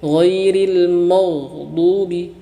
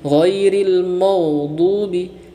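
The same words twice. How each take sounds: The two takes are said the same way.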